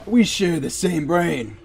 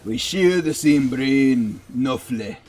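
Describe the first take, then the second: First: Mock accent, not Irish; put-on accent. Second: Put-on slow, amateur Irish accent; loosely imitated Irish lilt. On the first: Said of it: "Wrong accent?". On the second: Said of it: "my Irish accent is not that bad".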